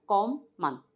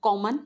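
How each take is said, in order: First: "कॉमन" broken as "kom, man"; split into syllables. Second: Said in the usual way. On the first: Shown as a demonstration. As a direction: say "कॉमन" in two beats with a gap. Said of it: "दो syllable में हमारा". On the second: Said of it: "टू syllables क्या होंगे".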